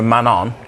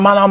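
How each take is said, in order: First: It is said in a calm, even tone. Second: It is said in a sharp, urgent tone.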